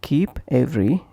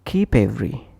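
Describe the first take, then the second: First: "keep every" with a break after p; separate words. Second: "keep every" run together as kee-pevery; consonant linked to vowel. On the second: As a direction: push the p onto "every". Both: Shown as a demonstration. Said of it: "is pronounced as".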